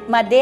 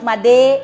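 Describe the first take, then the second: First: The E sound is said weakly. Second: The E sound is said strongly. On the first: The speaker calls it wrong. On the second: The speaker calls it right.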